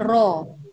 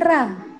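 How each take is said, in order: First: The vowel sounds like a clear o. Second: The vowel sounds like a clear a. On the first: "bukan ro" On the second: "tapi bukan ra"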